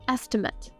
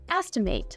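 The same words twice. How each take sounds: First: It is pronounced the way the noun is. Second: It is pronounced the way the verb is. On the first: It names a rough calculation. "It can also be used as a noun. In this case, we'd say an estimate" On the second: It names the action of guessing a value. "As a verb, this word is pronounced estimate"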